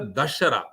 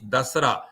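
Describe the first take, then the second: First: The middle consonant is an 'sh' sound. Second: The middle consonant is a plain 's' sound. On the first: It means the defeat of the ten-headed one. "pronounced as a Dashara, which means derived from Dasha and Hara" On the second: It means ten nights. "Das means ten. Ra means Ratri"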